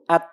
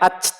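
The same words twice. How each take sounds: First: The final t is released without extra breath. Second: The final t is released with extra breath. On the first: The speaker calls it right. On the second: The speaker calls it wrong.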